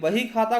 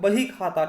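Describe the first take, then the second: First: The first word begins with a v sound. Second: The first word begins with a b sound. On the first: This is the standard Hindi form. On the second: This is the Kannauji dialect form.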